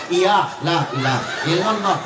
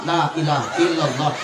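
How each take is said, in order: First: Mumbled "la ilaha illallah" run together as ilalo; half-laughing slurred reply chant; sloppy zikir. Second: Mumbled, rushed la ilaha illallah swallowed into ilalo; sloppy zikir. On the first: Mocking the crowd's response, slurred zikir. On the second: Mocking lazy congregation, slurred rushed zikir. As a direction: gabble "la ilaha illallah" as slurred mock chant. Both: Shown as a demonstration. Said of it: "Macam mana zikir begini".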